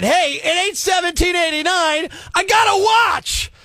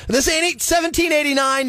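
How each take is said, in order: First: Ranting shout. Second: Said in the usual way. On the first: Acted. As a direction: hammer the point home with a shout. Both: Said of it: "let me say it again".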